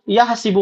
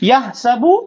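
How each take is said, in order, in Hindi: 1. s के बाद का स्वर 'i' है। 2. s के बाद का स्वर 'a' है। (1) "तो वो यह सीबू पढ़ेंगे" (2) "हम यहां पर यानी यह सबू पढ़ेंगे"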